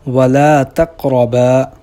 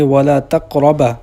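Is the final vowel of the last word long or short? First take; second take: long; short. First: The final vowel is held long. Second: The final vowel is cut short. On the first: The speaker calls it right. "जैसे कुरान मजीद में है" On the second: The speaker calls it wrong. "बा को लंबा करने की बजाय"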